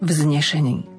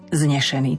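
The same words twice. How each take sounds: First: The prefix is clearly pronounced. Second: The prefix is swallowed and unclear. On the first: The speaker calls it right. "tam zase musí zaznieť tá predpona" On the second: The speaker calls it wrong. "nie vznešený, to je iné"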